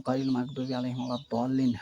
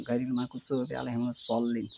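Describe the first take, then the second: First: "মাগদুবি" and "দল্লিন" with a clear D; D sound for Dad. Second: "মাগদুবি" and "সল্লিন" with an S-like sound in place of D; S sound for Dad. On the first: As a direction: say the letter in "দল্লিন" as a hard D. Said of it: "দোয়াত ধরে". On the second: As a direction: say "সল্লিন" starting with a sibilant, not a D. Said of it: "সেটা হবে". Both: Shown as a demonstration.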